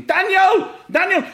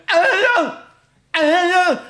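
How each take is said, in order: First: High, loud shout of the name. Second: High, loud garbled yell; changing, frozen voice. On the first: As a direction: yell out to his kid across the pitch. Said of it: "So he's running and spraying, shouting". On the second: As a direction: shout the name through a numbed, frozen mouth. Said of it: "you can hear his voice changing". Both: Retold or imitated.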